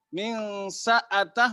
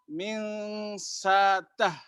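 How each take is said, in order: First: The second word has a glottal stop inside. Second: The second word has a long vowel, no stop.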